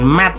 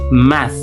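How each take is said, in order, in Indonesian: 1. Kata ini berakhir dengan bunyi t yang keras. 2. Kata ini berakhir dengan bunyi th yang lembut. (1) "Jadi bukan math" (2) "tetapi math"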